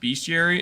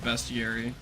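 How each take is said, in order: First: The first syllable sounds like 'beast'. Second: The first syllable sounds like 'best'. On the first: The speaker calls it wrong. "I try to say be Bestiary" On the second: The speaker calls it right. "instead of Bestiary because there's no A"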